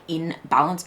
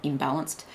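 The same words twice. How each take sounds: First: "in" set apart from "balance"; in balance as two words. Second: "imbalanced" run together, lower and softer; imbalanced as one word. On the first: Clarifying for the viewer what was meant, "in balance" as two words. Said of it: "not imbalanced". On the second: Ruling out the misheard word for the viewer, "imbalanced" run together. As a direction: drop "imbalanced" low as a single joined word. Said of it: "like, in balance". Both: Shown as a demonstration.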